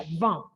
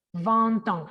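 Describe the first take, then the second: First: Vingt with the T silent. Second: Vingt ans with the T sounded, joined to ans; linked T. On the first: Teacher showing vingt said alone, final T silent. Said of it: "la T no se pronuncia". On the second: Teacher showing the T linking vingt to ans. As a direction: vingt ans run together through the T. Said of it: "como lo pegamos sería". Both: Shown as a demonstration.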